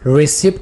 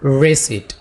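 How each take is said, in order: First: The p sound is pronounced before the t. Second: The p sound is left silent. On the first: The speaker calls it wrong. "इसे हम रिसिप्ट नहीं कहेंगे" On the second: The speaker calls it right. "बल्कि क्या होगा, रेसिट"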